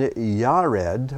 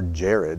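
First: The name begins with a Y sound. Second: The name begins with a J sound. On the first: This is the original Hebrew form of the name. "It's actually Yared" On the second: This is the form found in English Bibles. "as it may say in your Bible"

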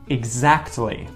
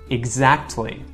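The two takes are said the same way.

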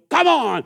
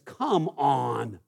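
First: It sounds like a challenge to a fight. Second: It sounds exasperated at someone pathetic.

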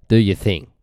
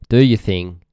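No difference in how they are said.

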